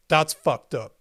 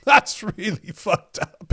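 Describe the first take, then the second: First: Said in the usual way. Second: Laughing. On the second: Real, not acted. Streamer laughing at a shocking comment. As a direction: repeat it through a laugh, disbelieving.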